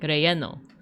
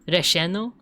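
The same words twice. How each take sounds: First: The double L sounds like y (Mexican). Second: The double L sounds like sh (Argentine).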